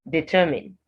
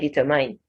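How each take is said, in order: First: The last syllable has a short 'in' sound. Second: The last syllable has an 'eye' vowel sound. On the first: The speaker calls it right. "it's in" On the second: The speaker calls it wrong. "don't say determine, not I"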